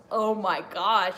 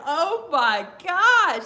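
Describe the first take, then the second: First: Said in the usual way. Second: Very slow, loud and high; high excited oh my gosh. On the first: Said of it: "it was just like". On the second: Real, not acted. Fan still thrilled by the promo, a drawn-out high gasp. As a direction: drag out the amazement. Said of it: "He had me laughing".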